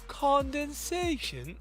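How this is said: It is said in an attempted British accent.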